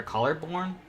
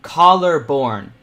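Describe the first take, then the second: First: Said in the usual way. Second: "Collarbone" drawn out slowly and loudly, each syllable spelled out; slow careful pronunciation. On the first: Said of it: "Not collarbone". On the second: Shown as a demonstration. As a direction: sound out "Collarbone" syllable by syllable, louder. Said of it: "I can't speak English today".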